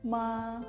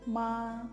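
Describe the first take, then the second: First: It is said with the first tone. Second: It is said with the first tone.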